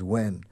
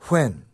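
First: The word starts with a plain, voiced w. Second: The word starts with a breathy, voiceless w. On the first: "the other W, with the way we pronounce it mostly today" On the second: "The voiceless one sounds like which. It's like blowing out a candle"

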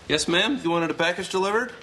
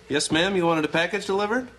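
No difference in how they are said.

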